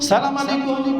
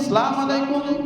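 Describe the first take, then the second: No difference in how they are said.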